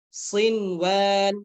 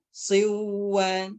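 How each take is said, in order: First: The n sound is pronounced clearly before w. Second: The n sound is merged away before w. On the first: The meaning of the word stays correct. The speaker calls it right. "Jadi dibaca sin, sinwan" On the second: The meaning of the word becomes confused. The speaker calls it wrong. "sinwanun tidak dibaca siw. Nah, kan sudah beda ya"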